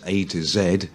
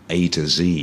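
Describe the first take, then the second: First: The final letter is said the British way. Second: The final letter is said the American way. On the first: "So in English, it's A to Z" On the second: "And in American, A to Z"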